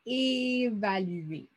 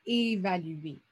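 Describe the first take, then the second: First: "Évaluer" stretched very slowly so each sound is heard; slow it right down for listening; drawn-out word. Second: Said in the usual way. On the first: Shown as a demonstration. Teacher stretching the word so pupils hear the first sound. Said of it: "le premier son que tu entends dans le mot". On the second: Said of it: "C'est quoi le premier son que tu entends".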